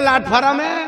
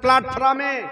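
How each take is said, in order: First: It begins with plain 'l', with an extra vowel. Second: It begins with a 'pl' cluster, two syllables. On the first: This is a distorted village form of the word. "Ranitala গেলে বলবে যে লাটফারাম" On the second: This is the standard form of the word. "প্রপার train স্টেশনে দাঁড়িয়ে থাকবেন"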